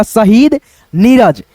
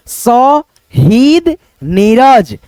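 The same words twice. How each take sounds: First: Said in the usual way. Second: शहीद नीरज with every syllable drawn out very long; stretched dictation. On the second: Shown as a demonstration. Teacher dictating शहीद नीरज to pupils, very slowly drawn out. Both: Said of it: "मैं बोल रहा हूँ".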